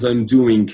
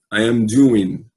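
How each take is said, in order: First: Doing with a hard G sounded at the end; I'm doing ending in a clear G, the wrong way; wrong pronunciation. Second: Doing ending on the N sound, no G; correct pronunciation. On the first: Teacher showing students the wrong ending, a hard G. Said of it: "não". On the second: Teacher modelling the right ending for students, ending on N. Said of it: "é assim que se fala". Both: Shown as a demonstration.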